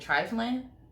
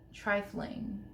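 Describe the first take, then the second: First: The word ends without a g sound. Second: The word ends with a clear g sound.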